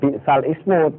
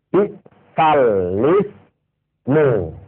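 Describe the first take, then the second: First: The last word begins with a vowel. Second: The last word begins with an l sound. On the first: The speaker calls it wrong. "walaupun tulisannya bi'sal ismu" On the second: The speaker calls it right. "wajib dibaca bi'sal lismu"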